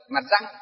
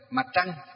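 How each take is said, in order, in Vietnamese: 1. Từ thứ hai bắt đầu bằng âm r bình thường. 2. Từ thứ hai bắt đầu bằng âm tr, uốn lưỡi. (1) "các cụ ngày xưa, ví dụ như đọc như là" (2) "đọc nó chuẩn ... hơi uốn lưỡi lên một chút"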